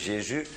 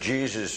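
First: The name is pronounced the French way. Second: The name is pronounced the English way. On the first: "de Fransen zeggen Jezus" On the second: "Engelsen zeggen Jesus"

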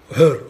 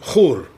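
First: The name begins with a soft h sound. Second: The name begins with a harsh throaty ch sound. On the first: The speaker calls it wrong. "het is niet een he" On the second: The speaker calls it right. "het is een geet aan het begin van zijn naam"

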